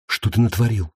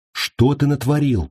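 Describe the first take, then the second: First: Said in the usual way. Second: Higher-pitched insistent question; insistent repeat. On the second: A narrator's reading. Girl repeating her question to the savage, insistently. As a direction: press the question with raised pitch. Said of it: "повторила девушка".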